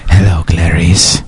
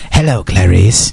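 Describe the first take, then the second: First: It is said in a very deep voice. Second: It is said in a lighter voice.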